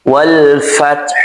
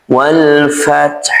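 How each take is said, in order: No difference in how they are said.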